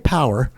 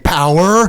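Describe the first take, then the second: First: The word is said short and quick. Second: The word is drawn out with a long vowel. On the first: Add a small amount of power. "that's a small shot of power" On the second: Add a lot of power immediately. "that's a long blast on power. So that extended E"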